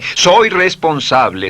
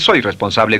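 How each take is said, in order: First: It is said with strong feeling. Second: It is said flatly, without feeling.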